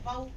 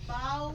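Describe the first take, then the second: First: The vowel is clipped short and abrupt. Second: The vowel is soft and drawn out. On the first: The speaker calls it wrong. "बाऊ ऐसे नहीं कहना" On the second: The speaker calls it right. "नरमी से पढ़ना है और बगैर झटका दिए, और डेढ़ हरकत के बराबर हमने इसको लंबा करना है"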